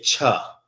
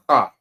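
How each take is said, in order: First: It starts with a 'ch' as in church. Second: It starts with a rough rasp in the throat. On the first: The speaker calls it wrong. "This is not cha. That's the English way of saying it" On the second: The speaker calls it right. "Sound like you hawking up some spit"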